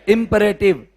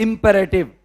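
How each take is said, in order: Both takes have the same delivery.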